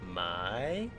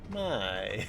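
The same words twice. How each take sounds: First: The pitch rises on the word. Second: The pitch falls on the word. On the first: This means to buy. "the tone goes up because you're buying something" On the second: This means to sell. "When you sell something, you're putting it down"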